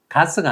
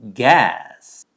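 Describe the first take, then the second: First: The word is said with Korean sounds. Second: The word is said with English sounds. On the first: The speaker calls it wrong. "가스가 아니라" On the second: The speaker calls it right. "이렇게 발음되는데"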